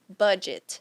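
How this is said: It is said with English sounds. The word keeps its original English pronunciation. "A pronúncia seria budget"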